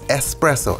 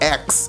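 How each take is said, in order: First: The word begins with an 'es' sound. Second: The word begins with an 'eks' sound. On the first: The speaker calls it right. "I learned that the hard way" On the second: The speaker calls it wrong. "Not X"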